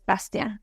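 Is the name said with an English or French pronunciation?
French. The name is said with a French pronunciation. "if we're saying it in French, it's Bastien"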